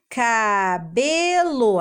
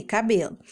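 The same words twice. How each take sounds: First: "Cabelo" very slowly as ca... be... lo; three drawn-out beats in "Cabelo"; syllable by syllable. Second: Said in the usual way. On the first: Shown as a demonstration. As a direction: piece "Cabelo" together syllable by syllable. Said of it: "vamos juntar e formar a palavra". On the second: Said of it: "Aí a criança escreve aqui".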